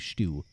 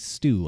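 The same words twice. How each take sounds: First: It starts with an Irish sh sound. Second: It starts with a plain s sound.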